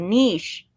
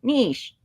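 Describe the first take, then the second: First: The vowel is long, rhyming with quiche. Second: The vowel is long, rhyming with quiche.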